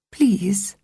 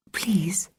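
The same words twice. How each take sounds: First: Said in the usual way. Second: Breathy whispered please, almost silent; soft whispered pleading. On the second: A narrator's reading. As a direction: beg in a hushed whisper. Begging for a picnic.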